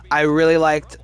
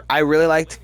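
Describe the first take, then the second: No difference in how they are said.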